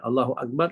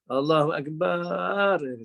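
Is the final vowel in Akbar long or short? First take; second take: short; long. First: The last vowel of Akbar is kept short. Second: The last vowel of Akbar is stretched long. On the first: God is the greatest. The speaker calls it right. "Allah Maha Besar" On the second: The meaning is changed. The speaker calls it wrong. "dipanjangkan kat, kat ujung pula... Itu pun tak sah"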